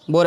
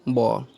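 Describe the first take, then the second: First: बोर with rounded o and a sounded r; everyday pronunciation. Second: बो as a low falling "baw", no r; correct pronunciation. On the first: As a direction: say बोर the usual Indian way, "bor". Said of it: "बोर ऐसे पढ़ते हैं". (बोर को देसी ढंग से, "र" के साथ बोलें) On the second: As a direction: open the vowel in बो and drop the r. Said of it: "इसका उच्चारण शुद्ध क्या है". (बो को शुद्ध "बॉ" जैसा, बिना "र" के बोलें) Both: Shown as a demonstration.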